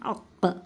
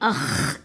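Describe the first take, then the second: First: It ends with a deep stop q sound. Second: It ends with a raspy, friction kh sound. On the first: The speaker calls it right. "देखिए अक़" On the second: The speaker calls it wrong. "अख़ कर को नहीं बोलेंगे"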